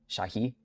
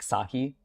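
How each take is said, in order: First: The name begins with a sh sound. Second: The name begins with a plain s sound. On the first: The speaker calls it right. "that S sound is like a sh sound" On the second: The speaker calls it wrong. "it's not like just an S like Sahi"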